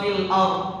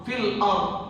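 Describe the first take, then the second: The two takes are said the same way.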